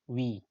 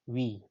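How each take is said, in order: No difference in how they are said.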